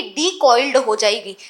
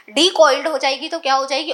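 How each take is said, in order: First: डीकॉइल्ड said slowly, dropping low; slow stress on decoiled. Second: Said in the usual way. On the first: Shown as a demonstration. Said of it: "ये क्या हो जाएगी?".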